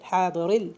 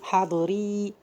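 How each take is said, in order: First: The word ends on 'r' with no vowel. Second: An 'ee' vowel follows the 'r'. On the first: The speaker calls it right. "so to become حاضر" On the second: The speaker calls it wrong. "we're not gonna say حاضري"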